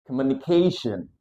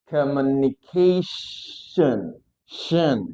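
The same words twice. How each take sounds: First: Said in the usual way. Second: COMMUNICATION stretched, with a long sh before "shen"; very slow, broken-up COMMUNICATION; slow syllable demo. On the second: Shown as a demonstration. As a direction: linger on the SH, then repeat "shen". Teacher models word slowly.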